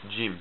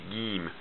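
First: It begins with an English j sound. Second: It begins with a hard g sound. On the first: "it makes the sound like the English letter j" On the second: "they will pronounce the jim more like the letter G"

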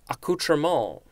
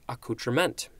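First: The word is said with a French-style pronunciation. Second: The word is said with an English-style pronunciation. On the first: "I'm going to try to pronounce this correctly" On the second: "I think that would be the English pronunciation"

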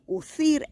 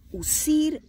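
First: The consonant is pronounced like a th. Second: The consonant is pronounced like an s. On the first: This is the pronunciation used in Spain. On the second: This is the Latin American pronunciation.

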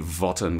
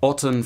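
First: The word begins with a v sound. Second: The word begins with a vowel. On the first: This is the traditional church pronunciation. "traditional church pronunciation would be votten with an added v" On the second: This is the classical pronunciation. "the classical pronunciation was probably as I just said"

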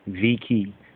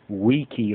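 First: The word begins with a V sound. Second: The word begins with a W sound. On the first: The speaker calls it wrong. "people will say it as Veni, Vidi, Viki" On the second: The speaker calls it right. "But the correct Latin is really Wiki"

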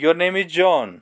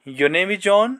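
First: It sounds confident, like a known fact. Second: It sounds like an unsure question.

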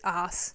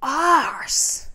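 First: It is said in a New Zealand accent. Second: It is said in a British accent.

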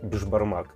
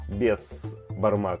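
First: The first syllable ends with a 'sh' sound. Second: The first syllable ends with an 's' sound. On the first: This is how it is said in one region. "прямо конкретно говорили «беш», то есть «ше»" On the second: This is how it is said in another region. "Где-то говорят «бес»"

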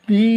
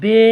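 First: The vowel is a pure, long ee sound. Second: The vowel is pulled toward an e sound. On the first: The speaker calls it right. "এটা হচ্ছে মারুফ।" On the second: The speaker calls it wrong. "এটা হচ্ছে মজহুল।"

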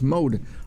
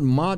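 First: The vowel is long, like in 'mode'. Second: The vowel is short, like in 'mod'. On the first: The speaker calls it right. "It's mode" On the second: The speaker calls it wrong. "It's not mod"

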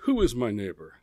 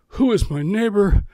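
First: The question sounds grudging and calculating. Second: The question sounds open and sincere. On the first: The asker wants to limit his responsibility. "It was, okay, just who is my neighbor? ... because I know that tone of voice" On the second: The asker genuinely wants to help. "It wasn't"

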